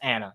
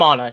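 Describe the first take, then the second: First: The name is said the non-Nordic way. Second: The name is said the Nordic way. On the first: This is the other person's name. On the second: This is the speaker's own name.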